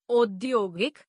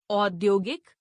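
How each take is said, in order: First: औद्योगिक with "o" for "au"; mispronounced. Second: Said in the usual way. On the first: Shown as a demonstration. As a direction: open औद्योगिक as "odyogik". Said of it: "अशुद्ध". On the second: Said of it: "शुद्ध".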